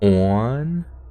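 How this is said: The vowel is deep and rounded, Pennsylvania-style.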